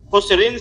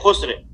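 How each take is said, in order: First: The word ends with an -in sound. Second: The word ends on a bare consonant sound. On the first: The reading continues past this word. "दो जेर पे वक्फ नहीं करेंगे" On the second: The reader stops on this word. "हजफ करके इसको साकिन पढ़ेंगे"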